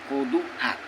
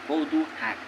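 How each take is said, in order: First: The second word begins with an h sound. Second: The second word begins with an h sound.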